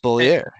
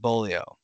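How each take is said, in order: First: The name ends with an 'er' sound. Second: The name ends with an 'oh' sound. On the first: The speaker calls it right. "It's Bollier" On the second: The speaker calls it wrong. "they said Bolio. That's wrong"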